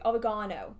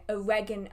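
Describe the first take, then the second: First: It is said with a British pronunciation. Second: It is said with an American pronunciation. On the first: The speaker calls it right. "the only pronunciation I will personally accept" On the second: The speaker calls it wrong. "how do Americans say it? ... That's it. ... That's horrible"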